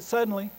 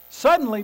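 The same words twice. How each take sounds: First: Said in the usual way. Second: "Suddenly" hit loud and high, falling off; emphatic suddenly. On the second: Shown as a demonstration. Pastor stressing how Jesus says "Suddenly", emphatic. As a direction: punch the word "Suddenly" hard. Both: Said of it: "it's how Jesus says it".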